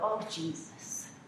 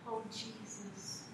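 First: It is a careless, exasperated exclamation. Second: It is a reverent, sincere address to Jesus.

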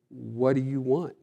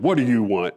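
First: It is said gently, as a searching question. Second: It is said curtly, like a brusque challenge.

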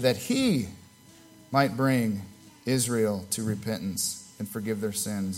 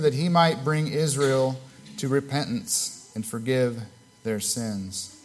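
First: The word he is stressed. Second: The word he is not stressed. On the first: The speaker calls it right. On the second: The speaker calls it wrong.

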